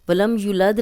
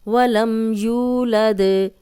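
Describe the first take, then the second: First: The vowel in 'yu' is cut short. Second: The vowel in 'yu' is held long. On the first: The speaker calls it wrong. "नहीं कहना क्योंकि ये दो हरकत लंबा हो रहा है" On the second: The speaker calls it right. "यू को लंबा करेंगे"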